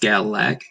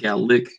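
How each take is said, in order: First: The second vowel sounds like 'a'. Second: The second vowel sounds like 'i'. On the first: "it would properly be pronounced Galac" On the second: "so with like an I or E sound"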